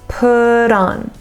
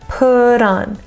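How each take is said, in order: The two takes are said the same way.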